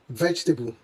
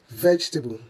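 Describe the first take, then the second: Both takes have the same delivery.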